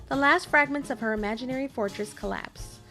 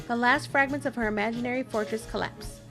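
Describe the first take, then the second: The two takes are said the same way.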